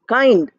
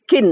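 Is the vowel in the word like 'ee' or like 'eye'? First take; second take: eye; ee. First: The vowel sounds like 'eye'. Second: The vowel sounds like 'ee'. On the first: The speaker calls it right. "So kind, I is written" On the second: The speaker calls it wrong. "but E, we don't say kin"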